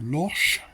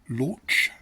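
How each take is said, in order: First: The word ends with a sh sound. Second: The word ends with a ch sound. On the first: This is how it is said in France. "it's more of a sh, so loche would be the pronunciation" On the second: This is the English-style pronunciation. "in an anglicised form would be launch, a ch sound"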